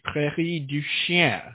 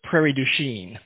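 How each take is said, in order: First: The name is pronounced with French sounds. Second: The name is pronounced with American English sounds. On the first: This is how the name would be said in French. "in French would be Prairie du Chien" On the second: This is how local people say the name. "in Wisconsin, they call it Prairie du Chien"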